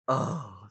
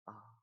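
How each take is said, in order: First: The sound is said loudly and strongly. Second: The sound is said softly and quietly. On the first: "But when I say it louder, now I feel ah" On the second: "now you try to say ah slowly. Ah, I don't feel that much vibrations now"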